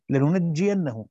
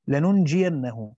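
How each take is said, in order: First: Said in the usual way. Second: لننجينه said slowly with a single, undoubled jim; slow لننجينه with the jim kept light, no shadda; careful slow لننجينه, jim not doubled; light reading. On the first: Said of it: "وقرأ الباقون بالتشديد". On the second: Shown as a demonstration. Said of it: "بالتخفيف".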